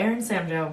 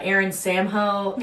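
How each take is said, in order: First: The name ends with a 'joe' sound. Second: The name ends with a 'ho' sound. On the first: The speaker calls it right. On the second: The speaker calls it wrong.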